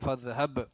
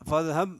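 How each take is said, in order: First: The final b is clearly released with a bounce. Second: The final b is flat and unreleased. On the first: The speaker calls it right. "ഇൽഹാർ ചെയ്തിട്ട് തന്നെ ... ബ് എന്ന് തന്നെ ഉച്ചാരണം വരണം" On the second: The speaker calls it wrong. "എന്ന് ഓതാൻ പാടില്ല"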